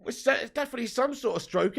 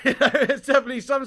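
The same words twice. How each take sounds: First: Said in the usual way. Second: Louder repeat through laughter; laughing. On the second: Real, not acted. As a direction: laugh the punchline out. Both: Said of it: "repeats it laughing".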